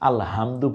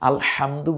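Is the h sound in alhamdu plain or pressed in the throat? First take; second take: plain; pressed. First: The h is a plain, light breathy sound. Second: The h is pressed deep in the throat. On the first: The speaker calls it wrong. "হাটা কণ্ঠনালীতে চাপ দিয়ে উচ্চারিত না হলে কি হয়" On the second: The speaker calls it right. "হাটা কণ্ঠনালীতে চাপ দিয়ে"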